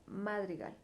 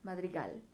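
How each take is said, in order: First: The stress is on the first syllable. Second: The stress is on the last syllable. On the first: "si yo le pusiera más fuerza en la A, en la ma" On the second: "Si le pongo fuerza en gal"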